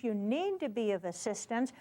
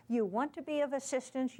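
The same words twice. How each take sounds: First: Need stressed with a rise. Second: Said in the usual way. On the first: Shown as a demonstration. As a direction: lean on the word need.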